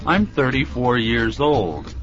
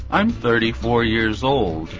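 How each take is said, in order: Both takes have the same delivery.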